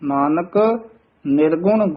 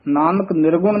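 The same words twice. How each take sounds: First: A short break follows the first word. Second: The two words run together without a break. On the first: The speaker calls it right. "Nanak ਪਦ ਤੇ ਯਮਕ ਜ਼ਰੂਰ ਲਾ ਕੇ ਬੋਲਣਾ ਹੈ" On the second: The speaker calls it wrong. "Nanak ਨਿਰਗੁਣ ਨਹੀਂ ਕਹਿ ਦੇਣਾ ਹੈ"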